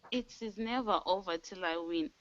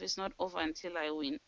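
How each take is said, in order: First: "never" pressed firmly; stress on never. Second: Softer, fast inner pep talk; quiet self-talk. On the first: The team hears her vow, stressing "never". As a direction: lean hard into "never". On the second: Telling herself the fight goes on, quietly. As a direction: murmur it quickly to yourself. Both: Shown as a demonstration. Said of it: "I say to myself".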